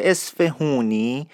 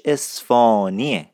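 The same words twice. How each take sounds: First: "اصفهونی" as es-fe-hoo-ni, slowly; wrong pronunciation. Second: "اصفهانیه" without h, long open aa: es-faa-nie; correct pronunciation. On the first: Teacher rejecting the outsiders' name, slow wrong "اصفهونی" with oo. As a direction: sound the h and long oo in "اصفهونی". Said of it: "این لهجه اصفهونی نیست". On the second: Teacher correcting learners on the name, slow h-less "اصفهانیه". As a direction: slowly stretch the middle of "اصفهانیه", swallowing the h. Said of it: "تلفظش رو درست باید یاد بگیرین". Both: Shown as a demonstration.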